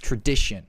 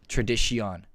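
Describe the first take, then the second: First: The 'o' in the last syllable is silent. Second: The 'o' in the last syllable is pronounced. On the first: The speaker calls it right. "So the O is silent, are they? ... you pronounce it as tradition" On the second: The speaker calls it wrong. "not tradition"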